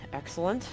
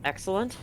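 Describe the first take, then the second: No difference in how they are said.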